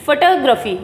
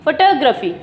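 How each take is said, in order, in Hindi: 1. ज़ोर दूसरे अक्षर पर है। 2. ज़ोर दूसरे अक्षर पर है।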